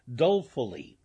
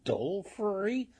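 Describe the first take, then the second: First: Dolefully said louder with a falling tune; a louder, settled yes to the word; firm confirmation. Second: Dolefully? said high and rising, like checking the word; a puzzled echo, pitched up; questioning echo of a word. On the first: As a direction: plant "Dolefully" firmly, bringing it down at the end. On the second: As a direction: ask back "Dolefully?" with a lifted, puzzled tune. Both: Shown as a demonstration.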